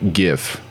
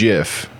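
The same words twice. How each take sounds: First: The word begins with a hard g sound. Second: The word begins with a j sound. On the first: The speaker calls it wrong. "not GIF" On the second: The speaker calls it right. "pronounced GIF, just like the peanut butter"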